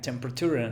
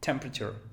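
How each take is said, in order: First: It is said with four full syllables. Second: It is said with three syllables. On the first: The speaker calls it wrong. "Alguien diría temperature, no" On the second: The speaker calls it right. "Cuatro sílabas, quedan tres"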